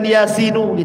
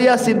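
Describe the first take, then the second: First: The word ends with an added vowel ending. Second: The word ends on a bare n sound. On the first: It would be treated as a name. The speaker calls it wrong. "bukan Yasinu" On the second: It is a string of letters, not a name. The speaker calls it right. "dibaca Yasin"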